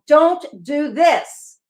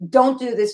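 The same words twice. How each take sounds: First: It is said dramatically, with exclamation. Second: It is said flatly and matter-of-factly.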